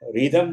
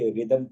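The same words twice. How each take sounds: First: An h sound is heard after the r. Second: No h sound is heard after the r. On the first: The speaker calls it wrong. "रिदम नहीं पढ़ा जाएगा" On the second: The speaker calls it right. "एच की आवाज बिल्कुल यहाँ खत्म हो जाएगी"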